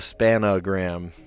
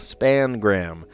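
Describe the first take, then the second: First: The word is said with three syllables. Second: The word is said with two syllables. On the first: The speaker calls it wrong. "not the spanogram" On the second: The speaker calls it right. "because I call it what it is. It's the spangram"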